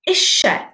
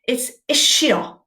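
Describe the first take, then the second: First: It is said the South Wales way. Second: It is said the North Wales way. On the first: "But in South Wales, ... we say dych chi isie" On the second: "In North Wales, ... it's isio"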